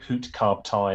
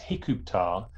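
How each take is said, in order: First: The word is said as 'hut-kar'. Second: The word is said as 'hi-kup-tar'. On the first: This is the conventional modern scholarly reading. The speaker calls it wrong. "we say Hutkar in our uncomprehending Egyptology way" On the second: This is the likely ancient pronunciation. The speaker calls it right. "it's more likely that the pronunciation ... in ancient times was Hikuptar"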